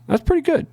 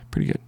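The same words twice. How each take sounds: First: Sudden high delighted squeal; excited squeal. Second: Said in the usual way. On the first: Real, not acted. Trader squealing with joy at his account balance. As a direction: squeak it out with glee over the win.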